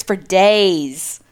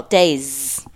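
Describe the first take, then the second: First: "days" said with the stress landing wrong; wrong emphasis. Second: "days" said lower with the stress put right; "days" redone with corrected emphasis. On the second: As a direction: fix the stress on "days", dropping the pitch. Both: Shown as a demonstration. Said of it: "I put the emphasis on the wrong syllable".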